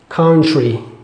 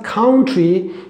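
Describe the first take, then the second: First: The t and r sound like ch-r. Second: The t and r are pronounced as a plain t-r. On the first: The speaker calls it right. "We just say like C H R" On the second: The speaker calls it wrong. "not country"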